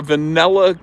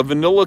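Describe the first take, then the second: First: Vanilla said va-NELL-a, high; Jersey vanilla. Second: Vanilla with short i, va-NIL-la; imitated standard vanilla. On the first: Retold or imitated. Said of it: "That's Jersey". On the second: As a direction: say vanilla with NIL, higher pitch. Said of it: "you pronounce it vanilla".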